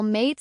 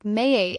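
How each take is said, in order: First: Said in the usual way. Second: "mayate" with the vowel drawn into two sounds; Aussie stretched vowel. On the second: Shown as a demonstration. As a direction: say "mayate" as mate with an exaggerated, stretched A. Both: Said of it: "mate sounds like mayate".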